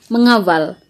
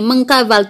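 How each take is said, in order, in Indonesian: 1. Bunyi k setelah awalan dihilangkan. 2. Bunyi k setelah awalan dipertahankan. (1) "tapi mengawal" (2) "bunyinya tidak begini"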